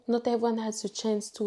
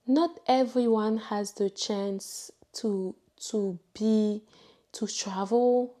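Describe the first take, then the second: First: Fast, rushed rephrasing; brisk, offhand retake; quick restart. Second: Slow, weighty delivery, stress on not; deliberate, heartfelt slow statement; slow emphasis. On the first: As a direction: hurry through it to get the point out. Quick rephrasing of same line. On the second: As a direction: lean on each word slowly. Slow emphatic first try. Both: Real, not acted.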